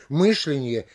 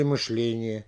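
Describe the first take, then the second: First: "мышление" stressed on МЫШ; stress on first syllable. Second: "мышление" stressed on ЛЕ; stress on second syllable. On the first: Lecturer offering wavering variants, first-syllable "мышление". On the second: Lecturer offering wavering variants, "мышление" stressed on ЛЕ. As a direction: move the beat to ЛЕ in "мышление". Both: Shown as a demonstration. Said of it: "как будет правильнее произнести".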